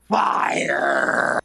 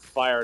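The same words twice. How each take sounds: First: It is said in a strained, exaggerated put-on voice. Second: It is said in an ordinary speaking voice. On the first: "I'd say fired" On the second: "instead of just saying fired"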